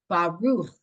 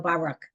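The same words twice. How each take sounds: First: The final consonant is a throaty ch sound. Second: The final consonant is a hard k sound. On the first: The speaker calls it right. "It actually, the word is Baruch" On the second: The speaker calls it wrong. "most of us say it wrong because we just go Baruch, like it's a K"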